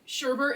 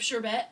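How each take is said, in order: First: "sherbet" as SHER-bert, with an added R; everyday pronunciation. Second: "sherbet" as SHER-bet, no second R; original pronunciation. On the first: Defending the common form to a friend, "sherbet" as SHER-bert. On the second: Contrasting two forms for a friend, "sherbet" as SHER-bet. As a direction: end "sherbet" on a clean -bet. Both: Shown as a demonstration. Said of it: "for saying sherbet instead of sherbet".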